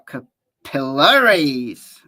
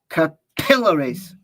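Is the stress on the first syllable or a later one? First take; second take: later; first. First: The stress is on a later syllable. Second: The stress is on the first syllable.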